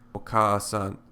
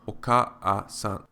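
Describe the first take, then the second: First: The word is said quickly, vowels merged together. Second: The word is said slowly, vowels kept apart.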